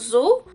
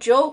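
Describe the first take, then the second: First: The name begins with a z sound. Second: The name begins with a j sound. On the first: This is how the letter reads in Brazil. "no Brasil o Z tem o som de Zul" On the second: This is the other host's preferred form. "como você preferia aí"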